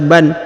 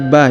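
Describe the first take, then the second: First: The syllable ends with an n sound. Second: The syllable ends with a long a vowel. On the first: The word is read joined to what follows. "berharokat tanwin an dibaca ban" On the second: The reading stops at the end of the verse. "dirubah menjadi a dan dipanjangkan dua harokat"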